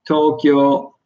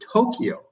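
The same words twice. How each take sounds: First: It is said with a Japanese pronunciation. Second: It is said with an English pronunciation. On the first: "That's the actual Japanese pronunciation" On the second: "English people say Tokyo"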